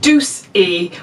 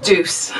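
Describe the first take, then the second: First: The word ends with an added vowel sound. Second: The word ends on the consonant, no vowel.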